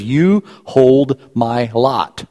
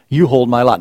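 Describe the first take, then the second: First: Slowly, each word weighed; slow, deliberate reading. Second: Said in the usual way. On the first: Shown as a demonstration. Pastor slowly reading the verse to the congregation, weighty. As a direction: read it slowly, letting each word land.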